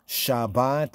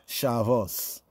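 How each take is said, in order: First: It has a b sound and ends in t. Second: It has a v sound and ends in s.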